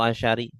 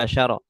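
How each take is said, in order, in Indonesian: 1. Kata ini diakhiri vokal i. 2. Kata ini diakhiri vokal a. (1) "atau asyari" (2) "selalu dibaca fathah"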